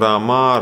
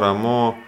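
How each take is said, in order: First: The word ends in an 'a' sound. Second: The word ends in an 'o' sound.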